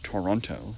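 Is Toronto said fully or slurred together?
fully. Every syllable of the word is pronounced clearly. "They don't say Toronto"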